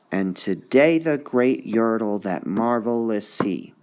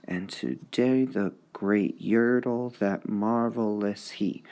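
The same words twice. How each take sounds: First: And today the great yertle, that marvelous he, beats on DAY, YER, MAR, HE; scanned reading. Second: And today the great yertle, that marvelous he, slower and softer; slow scanned reading. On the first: Teacher scanning a line for students. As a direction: read it, leaning on each beat. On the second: Teacher slowly scanning a line. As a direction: beat it out slowly for the class. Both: Shown as a demonstration. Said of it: "you should be able to hear it".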